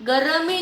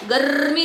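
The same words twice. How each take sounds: First: गर्मी as three syllables, "ga-ra-mee"; a full vowel after the r in गर्मी; wrong split pronunciation. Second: गर्मी as "garrr-mee"; correct rolled r. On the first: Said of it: "गर्मी नहीं है ना". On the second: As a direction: trill the r of गर्मी straight into "mee". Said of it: "गर्मी लिखना है हमें". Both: Shown as a demonstration.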